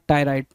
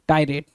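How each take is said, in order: First: The last syllable sounds like 'ride'. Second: The last syllable sounds like 'rate'. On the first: The speaker calls it wrong. "Not टायराइड" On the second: The speaker calls it right. "टायरेट basically"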